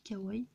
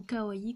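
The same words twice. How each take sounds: First: Said in the usual way. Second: KAWAII said the other way, as an optional variant; alternative pronunciation. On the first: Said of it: "Moi je dis kawaii". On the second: Shown as a demonstration. Crafter offering viewers another way to say it, alternative pronunciation of KAWAII. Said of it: "Ou kawaii comme vous voulez".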